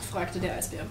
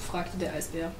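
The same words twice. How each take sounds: The two takes are said the same way.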